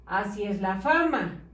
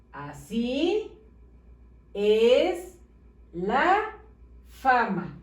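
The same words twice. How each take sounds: First: "Así es la fama" read without gaps between words; all bunched together. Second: "Así es la fama" with a pause after each word. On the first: Teacher reads badly written sentence, "Así es la fama" all bunched together. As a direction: read "Así es la fama" as one joined-up phrase. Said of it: "Está todo amontonado". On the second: Teacher shows how it should read, "Así es la fama" word by word. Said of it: "¿Qué debe de decir?". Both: Shown as a demonstration.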